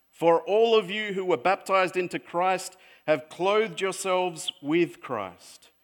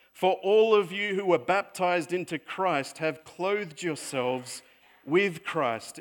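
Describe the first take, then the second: No difference in how they are said.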